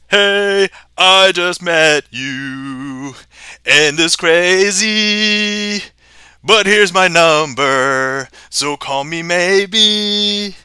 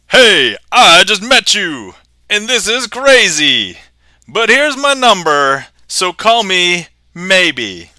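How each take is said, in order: First: It is said in a phantom voice. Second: It is said in an epic voice.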